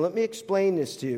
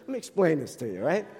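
First: Said in the usual way. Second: Put-on Jersey accent. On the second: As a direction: put on a New Jersey way of talking. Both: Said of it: "That's very Jersey".

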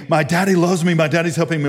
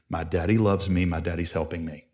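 First: Mock yell, pitched up; retold child screaming. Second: Put-on low, softened model line for a child; gentle, reassuring father voice; calm coaching. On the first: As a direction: call it out like the screaming kid, half-strength. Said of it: "he's screaming". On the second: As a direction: quietly give him the words to repeat. Father gives son words to scream.

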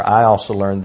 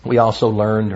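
First: "I also learned", louder, weight on "I"; stress on I. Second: Said in the usual way. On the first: Real, not acted. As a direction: correct yourself by punching "I". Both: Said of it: "or I also learned".

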